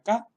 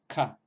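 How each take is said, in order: First: The k is plain, without a breathy puff. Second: The k is followed by a breathy puff. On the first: "si el anterior era K" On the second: "con- con esa aspiración posterior"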